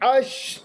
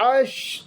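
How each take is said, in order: Both takes have the same delivery.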